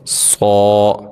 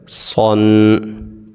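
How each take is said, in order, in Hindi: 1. अक्षर का अंत दीर्घ स्वर से होता है। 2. अक्षर का अंत 'न' की ध्वनि से होता है। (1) "रुकना कैसे है" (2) "सौद दो ज़बर सौन"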